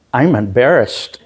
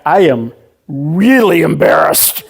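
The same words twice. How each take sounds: First: Said in the usual way. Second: REALLY stretched out and punched; stress on REALLY. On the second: Retold or imitated. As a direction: lean hard into "really" as a comic escalation. Intensifies his retold admission.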